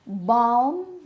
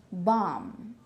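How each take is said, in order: First: Balm with the L clearly sounded; Filipino pronunciation. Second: Balm as bahm, lower and softer; silent L. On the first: Retold or imitated. Teacher imitating most Filipinos, sounded L. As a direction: say balm with an audible L. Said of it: "most of the Filipinos would say". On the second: Shown as a demonstration. Teacher modelling the correct word, silent L. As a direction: say balm without the L. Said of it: "a silent L".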